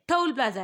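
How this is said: It is said in a harsh, scolding tone. The learner is being scolded for the mistake. The speaker calls it wrong. "अब बच्चे को तो आपने इतना डांट दिया"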